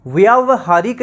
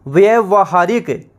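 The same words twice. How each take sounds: First: व्यावहारिक with a clear long व्या; correct form. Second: व्यवहारिक said with a short व्य, no long आ; व्यवहारिक slowly, short first vowel; wrong form. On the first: Teacher to students giving the correct spelling, long vowel. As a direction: stretch the आ in व्यावहारिक. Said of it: "व्यावहारिक इसे सही शुद्ध लिखा जाएगा". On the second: Teacher to students showing the wrong spelling, short vowel. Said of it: "व्यावहारिक हम लिख". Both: Shown as a demonstration.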